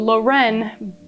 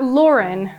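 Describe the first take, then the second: First: It is said like the surname Loren. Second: It is not said like the surname Loren. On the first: The speaker calls it right. "so Lauren" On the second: The speaker calls it wrong. "but not Lauren"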